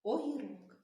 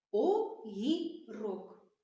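First: Said in the usual way. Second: Огірок said very slowly, о-гі-рок, each syllable apart; slow syllable demo. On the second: Shown as a demonstration. Teacher counts syllables with children, very slow. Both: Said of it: "Вимовляємо".

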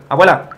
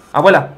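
No difference in how they are said.

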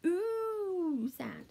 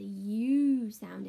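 First: "oo" drawn out high, rounded like "ooh"; stretched, demonstrated "oo"; long "oo" sound. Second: "U" stretched out and louder; "U" as a drawn-out letter name; stressed "U". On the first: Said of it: "but as the". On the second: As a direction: lean long and loud on "U", said like "you". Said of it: "not as the U sound anymore". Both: Shown as a demonstration.

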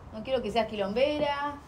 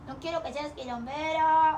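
First: Said in the usual way. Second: Put-on higher, slow baby-talk scolding of "quilombera"; talking to the puppy. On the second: Owner to her puppy, slow high baby-talk scold. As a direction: coo the scolding at the pup.

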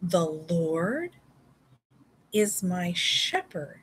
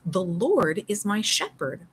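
First: "The Lord" pause then "is my shepherd" slow; slow recitation. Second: Said in the usual way. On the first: Shown as a demonstration. Teacher modelling the memory verse, slow with a pause. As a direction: recite it slowly, pausing after "The Lord".

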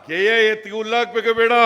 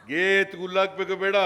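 First: ಗೆ ಎತ್ತಿಗೆ ಹುಲ್ಲಾಕ್ಬೇಕು ಬೇಡ said higher and louder, laughing through it; laughing retort. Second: Said in the usual way. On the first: Real, not acted. Speaker to rally crowd, laughing louder rhetorical question. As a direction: throw the folksy line back at the crowd, laughing. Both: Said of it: "repeated louder with a laugh".

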